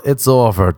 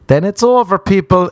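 First: Said in the usual way. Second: Emphatic declaration. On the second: Real, not acted. Declaring friendship over on Instagram.

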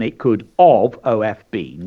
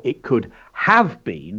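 First: "it could of" with "of" spelt out; could of been. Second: "it could have been" with a full "have"; could have been with clear have. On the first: Teacher showing the incorrect form to pupils. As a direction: stress "of" as the wrong form. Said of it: "which is incorrect". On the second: Teacher modelling correct "could have been". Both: Shown as a demonstration.

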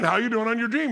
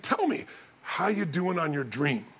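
First: Higher, firmer repeat of the question; pressing repeat. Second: Slow, softly put fatherly question; casual ask. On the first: Dad who sees through his daughter asks, pressing. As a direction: press her, as if she knows full well. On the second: Dad sitting with daughter asks about her dream, casual ask. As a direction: ease into the question, unhurried. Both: Retold or imitated.

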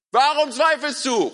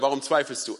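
First: Drawn-out high, loud shout. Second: Said in the usual way. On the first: Acted. Jesus calling to Petrus in wind and waves, shouting. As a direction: yell the question slowly through the storm. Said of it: "Er muss geschrien haben". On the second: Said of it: "einfach nur gesagt hat".

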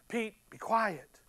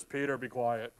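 First: Slow, softer fatherly hush; gentle hush. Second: Much lower, stern rebuke from heaven; deep heavenly voice telling Peter to hush; voice from the cloud. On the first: Heavenly voice gently hushes Peter, slow and soft. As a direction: calmly settle him down. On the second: Heavenly voice silences excited Peter, low and stern. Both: Acted. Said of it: "all of a sudden you hear this".

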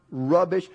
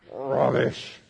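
First: Said in the usual way. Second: Rubbish said low and nasty with a small growl. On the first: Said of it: "Say the word rubbish". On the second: Shown as a demonstration. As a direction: growl rubbish like it disgusts you. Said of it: "say it like it's nasty and kind of growl a little bit".

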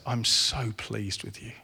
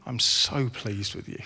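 First: Soft, slow tender reassurance. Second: Gentle voice of God. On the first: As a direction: say it slowly and softly, like a father to a child. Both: Acted. God repeating affirmation gently.

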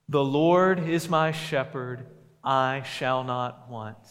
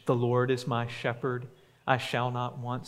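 First: Verse declared louder, slowing on I shall not want; loud group recitation. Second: Said in the usual way. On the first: Shown as a demonstration. Pastor leading the congregation in reciting, loud and slow. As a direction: proclaim it together, loud and slow at the end. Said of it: "Will you say that with me?". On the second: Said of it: "say that verse with me".

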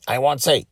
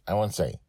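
First: Higher, louder sing-song tease; playful refusal. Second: Said in the usual way. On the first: Real, not acted. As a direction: dangle the secret in front of them. Repeated teasing refusal.

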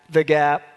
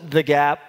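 Both takes have the same delivery.

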